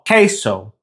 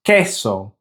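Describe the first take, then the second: First: "queso" with an English AY in the first syllable; English-accented pronunciation. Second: "queso" with a short E as in bed; short Spanish E. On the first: Teacher showing how English speakers say it, anglicised "queso". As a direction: say "queso" as KAY-so, English-style. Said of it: "pronounce with an A sound". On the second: Teacher modelling the correct Spanish for learners, short-E "queso". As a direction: say "queso" as KEH-so, pure vowel. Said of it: "with that short E sound". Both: Shown as a demonstration.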